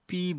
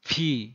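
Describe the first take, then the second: First: The p has no puff of air after it. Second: The p has a strong puff of air after it. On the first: The speaker calls it wrong. "কিন্তু এটি পি না" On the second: The speaker calls it right. "মুখ থেকে জোরে হাওয়া বের হবে"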